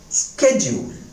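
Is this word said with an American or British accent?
American. It is said with an American accent. "the American accent is schedule"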